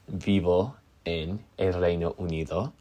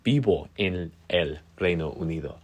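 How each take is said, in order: First: Vivo is said with an English V sound. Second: Vivo is said with B sounds. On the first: The speaker calls it wrong. "So I was saying" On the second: The speaker calls it right. "when it's actually vivo with two B's"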